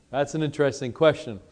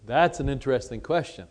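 The two takes are said the same way.

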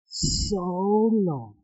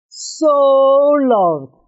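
First: Said in the usual way. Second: So leaps high, then loved; stress on So. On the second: Shown as a demonstration. Teacher correcting a flat reading, So leaps high. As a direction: punch So way up. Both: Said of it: "It's not so loved".

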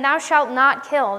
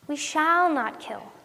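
First: "not" hit firmly in "Thou shalt not kill"; slow stern commandment, leaning on "not"; stress on NOT. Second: Slow, with "shall" stretched and stressed; "shall" drawn out, "not kill" falling after it. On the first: Retold or imitated. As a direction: read it as a prohibition, punching "not". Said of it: "you're putting the emphasis on the wrong". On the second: Shown as a demonstration. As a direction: make it a promise by leaning on "shall". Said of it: "putting the emphasis on the wrong word".

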